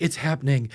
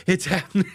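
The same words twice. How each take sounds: First: Said in the usual way. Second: Imitating a giggly, higher, louder its happening; laughing. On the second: Katie delighted the two finally met, laughing. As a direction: let the laugh break into happening. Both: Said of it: "she's like".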